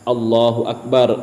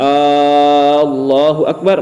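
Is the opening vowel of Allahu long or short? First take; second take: short; long. First: The opening vowel of Allahu is short. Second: The opening vowel of Allahu is drawn out long. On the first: It states that God is great. The speaker calls it right. "yang tadinya Allahu akbar, Allah Maha besar" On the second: It asks whether God is great. The speaker calls it wrong. "ketika kita memanjangkan Allahu akbar, maka itu akan menjadi istifham"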